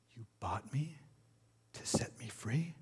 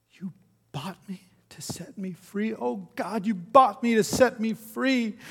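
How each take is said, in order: First: Hushed, incredulous question; disbelief. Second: High, building to a loud cry; dawning wonder breaking into an anguished shout; overwhelmed disbelief. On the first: Freed woman to her buyer, quietly disbelieving. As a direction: ask it softly, rising in wonder. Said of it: "she said in disbelief". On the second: Freed woman falling to her knees, crying out overwhelmed. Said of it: "she fell down on her knees, sobbing". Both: A narrator's reading.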